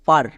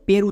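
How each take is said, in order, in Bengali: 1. স্বরধ্বনিটি একটি খোলা 'ah' ধ্বনি। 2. স্বরধ্বনিটি একটি মাঝারি 'eh' ধ্বনি। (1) "এর জন্য হয়ে যাবে পার" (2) "অনেকে একে ভুল করে পের উচ্চারণ করছো, পের কিন্তু হবে না"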